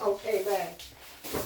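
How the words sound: It sounds annoyed and irritated.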